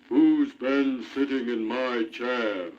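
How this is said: It is said in a great big voice.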